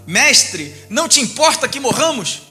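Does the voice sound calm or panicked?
calm. It is read in a calm, even voice.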